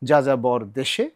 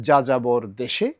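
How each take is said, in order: No difference in how they are said.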